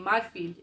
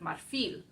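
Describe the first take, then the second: First: The stress is on the first syllable. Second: The stress is on the last syllable. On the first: The speaker calls it wrong. "I have a tendency to say marfil" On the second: The speaker calls it right. "I should be putting the stress on the last syllable"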